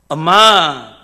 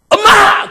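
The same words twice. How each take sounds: First: Called out in a softer, coaxing tone. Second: Called out sharply and urgently. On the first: The child wants pocket money. "밥 먹은 소리 하면" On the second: The child needs something right away. "나 지금 급하다 이 말이에요"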